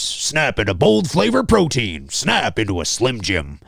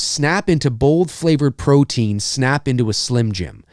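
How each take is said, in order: First: It is said in a put-on announcer voice. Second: It is said in his normal voice.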